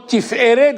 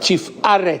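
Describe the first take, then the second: First: The middle vowel is an 'e' sound. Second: The middle vowel is an 'a' sound. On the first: The word stands inside a verse. "c'est écrit Tiferet" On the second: The word ends a verse. "quand c'est la fin d'un mot, on dit a"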